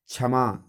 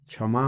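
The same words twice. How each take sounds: First: क्षमा begun with a simple "chh", as "chhama"; mispronounced first cluster. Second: Said in the usual way. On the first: Shown as a demonstration. Teacher showing students the error, क्षमा said "chhama". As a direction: say क्षमा as chha-ma. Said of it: "ये गलत है". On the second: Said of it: "क्षमा होता है".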